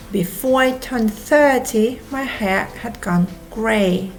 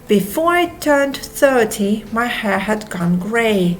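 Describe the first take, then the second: No difference in how they are said.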